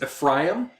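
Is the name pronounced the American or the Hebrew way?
Hebrew. The name is said with a Hebrew pronunciation. The speaker calls it right. "the Hebrew is Ephraim"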